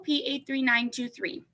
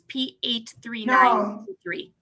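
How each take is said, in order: First: It is said very quickly. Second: It is said more slowly.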